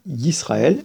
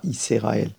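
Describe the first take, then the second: First: Yisraël with s and r joined; silent sheva. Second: Yisraël with an extra "e" after s; sheva voiced, mistaken. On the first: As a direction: say Yisraël as "Yis-ra-el", no vowel after s. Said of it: "donc il se prononce pas". (Yisraël, sheva muet : « Yis-ra-ël ») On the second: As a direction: break Yisraël into "Yi-se-ra-el". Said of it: "et pas Yisraël". (Yisraël avec sheva prononcé : « Yi-sé-raël ») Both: Shown as a demonstration.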